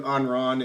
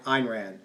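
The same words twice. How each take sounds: First: "Ayn Rand" said as "Ahn Rahn"; mispronounced name. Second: Said in the usual way. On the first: Real, not acted. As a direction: say "Ayn Rand" with "ah" in both words. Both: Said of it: "keep screwing up the pronunciation".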